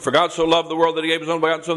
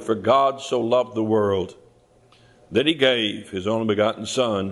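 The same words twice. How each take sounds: First: It is recited quickly, by rote. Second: It is said slowly and deliberately.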